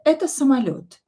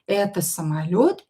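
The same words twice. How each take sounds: First: It is said with flat, falling statement intonation. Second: It is said with questioning intonation. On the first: This is a plane. "So it can be a, a statement" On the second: Is this a plane? "you will have to use your intonation"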